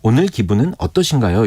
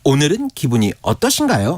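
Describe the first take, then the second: First: It is said plainly, without exaggeration. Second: It is said in a heavily exaggerated way.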